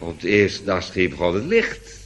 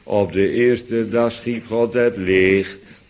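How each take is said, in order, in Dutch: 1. De melodie stijgt aan het eind. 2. De melodie zakt aan het eind. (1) "Er had een haal omhoog aan moeten zitten" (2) "Dat was de melodie ongeveer, ... En het klonk alsof het licht uitging"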